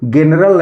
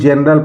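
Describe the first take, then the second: First: The word begins with a hard g sound. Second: The word begins with a j sound. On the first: The speaker calls it wrong. "नहीं पढ़ेंगे ... ना कि ग के रूप में" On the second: The speaker calls it right. "इसको हम जनरल पढ़ेंगे ... ज के रूप में प्रोनाउंस करते हैं"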